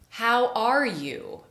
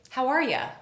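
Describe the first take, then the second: First: The last word is a full, clear 'you'. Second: The last word is reduced to a short 'ya'. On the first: "I'm pronouncing every single one of those words very clearly and precisely" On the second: "You becomes ya"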